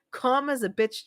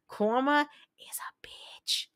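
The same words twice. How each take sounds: First: Said in the usual way. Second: Drawn-out, half-whispered dig; slow, pointed repeat. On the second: Real, not acted. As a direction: spell it out slowly for John, half whispered. Repeats it slowly for effect.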